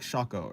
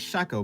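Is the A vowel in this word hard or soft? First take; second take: soft; hard. First: The A vowel sounds soft. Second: The A vowel sounds hard. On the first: "something close to like a softer A" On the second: "I'm saying shako"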